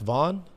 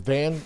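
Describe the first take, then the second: First: The vowel is the open 'aw' of 'dawn'. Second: The vowel is the short 'a' of 'cat'. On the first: The speaker calls it right. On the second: The speaker calls it wrong.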